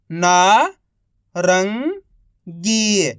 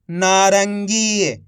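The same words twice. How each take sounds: First: Each syllable drawn out very slowly; slow syllable-by-syllable reading. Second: Said in the usual way. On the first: Shown as a demonstration. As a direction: sound out सुरंग slowly as सु-रं-ग, one sound at a time. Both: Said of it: "एक अक्षर का उच्चारण करके".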